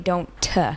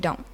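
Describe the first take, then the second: First: The final T is clearly and hard released. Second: The word ends after the N, no T. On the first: "We don't say don't t" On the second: "we just end the word after the N"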